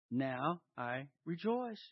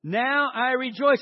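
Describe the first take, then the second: First: Soft, low, slow and spaced out; quiet reflection. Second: Higher, slow, emphatic rejoicing; really meaning it. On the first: Preacher asks if this is your attitude, hushed. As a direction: let each word sink in quietly. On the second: Preacher shows congregation how to mean it, emphatic. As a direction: proclaim it with full conviction. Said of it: "say it like you really, really, really mean it". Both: Shown as a demonstration.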